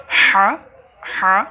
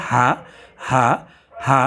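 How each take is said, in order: First: হা higher, with a strong h from mid-throat; mid-throat haa. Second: হা with a plain light h from the start of the throat; haa from throat's start. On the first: Teacher contrasting two Arabic letters, h from mid-throat. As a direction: push the h of হা from the middle of the throat. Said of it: "মধ্যখান থেকে উচ্চারিত হবে". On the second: Teacher naming the other haa, light h from throat's start. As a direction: say হা with an unforced h from the throat's beginning. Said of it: "শুরু থেকে উচ্চারিত হবে". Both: Shown as a demonstration.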